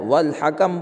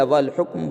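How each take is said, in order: First: "والحکم" with two short a's, hakam; first variant, wal-hakam. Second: "والحکم" with u, then closed km; second variant, wal-hukm. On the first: Teacher offering either reading, "والحکم" as wal-hakam. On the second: Teacher offering the other reading, "والحکم" as wal-hukm. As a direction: say "والحکم" as wal-hukm, one final syllable. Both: Shown as a demonstration. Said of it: "والحکم بولے یا والحکم بولے".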